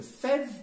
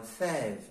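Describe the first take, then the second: First: Fève with a short, closed vowel. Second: Fève with a drawn-out open vowel; open, lengthened e in fève. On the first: Teacher offering the class a choice, closed e in fève. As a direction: say fève with the e kept tight. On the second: Teacher offering the class the right choice, long open è in fève. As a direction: stretch the è in fève. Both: Shown as a demonstration. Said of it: "Lorsque la prononciation est allongée".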